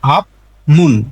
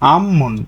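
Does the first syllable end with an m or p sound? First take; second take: p; m. First: The first syllable ends with a p sound. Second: The first syllable ends with an m sound. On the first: The speaker calls it wrong. "এর স্বাভাবিক উচ্চারণ হচ্ছে আপমুন" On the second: The speaker calls it right. "আপমুন না হয়ে এর উচ্চারণটা হবে আমমুন"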